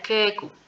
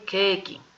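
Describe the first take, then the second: First: The final k is followed by a short u. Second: The final k is followed by a short i. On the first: The speaker calls it wrong. "si colocamos una U, diría keku" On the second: The speaker calls it right. "Si colocamos una I, keiki"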